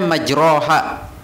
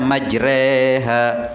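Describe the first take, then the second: First: The vowel after r is a plain open a. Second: The vowel after r leans toward e. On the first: This is how it is written. "Tulisannya majroha" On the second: This is how it is actually recited. "dibaca imalah mereng. Jadi bacanya majreha"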